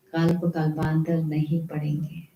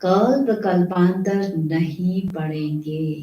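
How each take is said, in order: First: Repeated much softer and lower; an echo that dies away after the first warning. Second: Kalp drawn out, each word spaced; the preacher slows to press the warning home; slow, weighty warning. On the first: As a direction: let the warning sink in quietly. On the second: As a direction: spell it out slowly like a stern warning. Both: Shown as a demonstration. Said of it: "repeated for emphasis".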